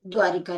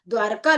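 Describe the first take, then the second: First: द्वारिका as "dvaa-ri-kaa"; wrong form with i. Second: द्वारका with no i, "dvaar-kaa"; correct two-syllable form. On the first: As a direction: say द्वारिका with a short i between r and k. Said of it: "ना कि द्वारिका". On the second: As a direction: say द्वारका straight from r into k. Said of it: "ना कि द्वारिका लिखा जाता है". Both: Shown as a demonstration.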